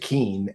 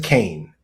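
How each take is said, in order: First: The name has the vowel of 'see'. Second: The name has the vowel of 'day'. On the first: "I always mispronounce it Keen" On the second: "she pronounces it Kane"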